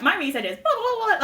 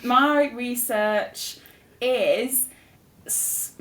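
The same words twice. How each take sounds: First: Mock research pitch, rising through the blahs; rehearsed spiel. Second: Slow, drawn-out start with pauses; halting. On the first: Student imitating her first-year pitch, rehearsed spiel. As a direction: reel off a practised summary, lifting higher. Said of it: "you get it down". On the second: Real, not acted. Student asked about her research, halting. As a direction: stall between the words, searching for the title.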